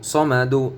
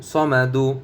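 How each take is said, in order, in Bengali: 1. শব্দটি একটি ছোট 'u' স্বরধ্বনি দিয়ে শেষ হয়। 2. শব্দটি একটি ছোট 'u' স্বরধ্বনি দিয়ে শেষ হয়।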